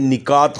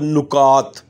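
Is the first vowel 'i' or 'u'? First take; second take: i; u. First: The first vowel is 'i'. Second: The first vowel is 'u'. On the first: The speaker calls it right. "बल्कि ये निकात होता है" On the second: The speaker calls it wrong. "नुकात दुरुस्त लफ्ज़ नहीं है"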